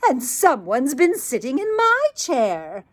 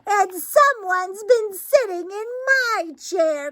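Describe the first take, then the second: First: It is said in a medium-sized voice. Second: It is said in a wee, small voice.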